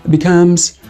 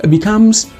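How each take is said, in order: No difference in how they are said.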